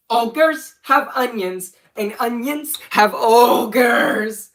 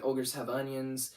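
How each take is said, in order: First: Loud, high, drawn-out catchphrase; hammed-up goofy shout with stretched words; shouted video catchphrase. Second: Said in the usual way. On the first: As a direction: belt out the silly cartoon line slowly. Performs line from own old video.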